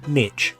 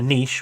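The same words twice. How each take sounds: First: It is said in an American accent. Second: It is said in a British accent.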